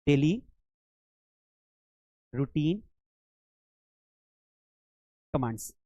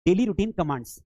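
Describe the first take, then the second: First: "daily ... routine ... commands" with a long pause after each word. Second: Said in the usual way. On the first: Shown as a demonstration. Teacher dictates the heading word by word. ("Daily routine commands" एक-एक शब्द रुक कर बोलें)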